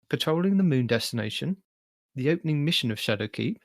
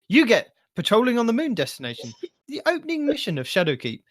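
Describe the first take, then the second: First: It is read in a flat monotone. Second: It is read with lively, varied pitch.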